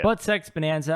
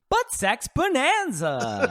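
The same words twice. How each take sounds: First: It is said in a plain, calm delivery. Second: It is said with big, enthusiastic energy.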